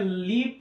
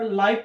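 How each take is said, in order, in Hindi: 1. स्वर एक छोटी 'i' ध्वनि है। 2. स्वर 'eye' ध्वनि है। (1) "इसको पढ़ेंगे लीव एक बार पढ़ते हैं" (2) "एक बार लाइव पढ़ते हैं"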